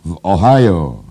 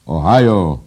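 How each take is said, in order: First: Very loud bellow, pitch swooping up; roared. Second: Loud, high crow of a cry; high treble crowing. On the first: Editor answering where the battle was, roaring. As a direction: roar it out in full voice. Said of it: "ryknął naczelny". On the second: Editor exulting over Ohio, crowing shrilly. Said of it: "zapiał naczelny wysokim dyszkantem". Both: A narrator's reading.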